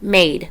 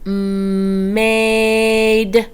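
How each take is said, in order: First: The sounds are blended into one quick word. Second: Each sound is said separately and stretched out. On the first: "What word?" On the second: "Sound it out"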